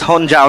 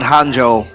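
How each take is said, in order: First: The name ends with a 'jao' sound. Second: The name ends with a 'jo' sound. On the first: The speaker calls it right. "It's Honjao" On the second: The speaker calls it wrong. "My bad for mispronouncing his name"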